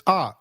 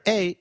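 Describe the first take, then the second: First: A said as an open "ah"; A sounded "ah", not "ay"; A as in father. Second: Said in the usual way. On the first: Shown as a demonstration. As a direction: say A with the vowel of father. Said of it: "as in father". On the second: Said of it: "is pronounced as A".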